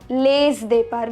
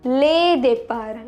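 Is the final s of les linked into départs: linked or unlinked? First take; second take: linked; unlinked. First: Les is linked to départs by a z. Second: Les is not linked to départs by a z. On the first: The speaker calls it wrong. "not les départs, because départ starts with consonant" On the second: The speaker calls it right. "the pronunciation is les départs"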